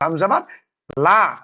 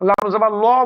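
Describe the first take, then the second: First: The final vowel is a clear, open aa. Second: The final vowel is dark and rounded, not aa. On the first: The speaker calls it right. "লা মানে মুখ খুলে বলছি" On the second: The speaker calls it wrong. "লাম জাবার ল বলছি না"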